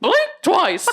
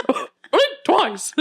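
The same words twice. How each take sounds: First: High cartoon mouse voice, less convincing; a worse retake of the Mickey voice; weaker Mickey Mouse. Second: High cartoon mouse voice with a laugh; redoing the Mickey voice on request, laughing. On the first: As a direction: try the mouse voice once more, laughing. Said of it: "It was worse that time". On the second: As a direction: squeak out the line like Mickey. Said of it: "That sounded like Mickey".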